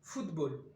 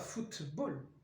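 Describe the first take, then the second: First: The consonant before b is a voiced d. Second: The consonant before b is a voiceless t. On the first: "vous dites football" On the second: "Vous ne dites pas football"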